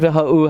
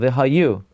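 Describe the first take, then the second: First: The y sound before the final vowel is dropped. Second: The y sound before the final vowel is clear. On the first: The speaker calls it wrong. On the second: The speaker calls it right. "You should emphasize the Yud"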